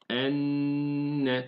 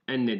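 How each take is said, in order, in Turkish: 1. Çift n uzun tutulur. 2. n kısa okunur, uzatılmaz. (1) "eşhedü enne tutuyoruz" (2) "Enne değil"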